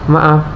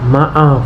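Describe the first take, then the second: First: The vowel has normal short length. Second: The vowel is stretched out long. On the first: The apology feels neutral. "vokal vokalnya itu normal, terasa netral" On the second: The apology is earnest or awkward. "vokalnya panjang untuk menandakan permohonan yang sungguh-sungguh ataupun canggung"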